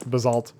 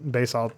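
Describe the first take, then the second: First: Basalt said as buh-ZALT; alternative pronunciation. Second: Basalt said as BAY-salt; alternative pronunciation. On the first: Reviewer trying the other name, Basalt as buh-ZALT. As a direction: stress the second syllable of Basalt, buh-ZALT. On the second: Reviewer unsure of a map's name, Basalt as BAY-salt. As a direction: say Basalt with a long "bay" first. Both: Shown as a demonstration. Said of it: "however you pronounce that".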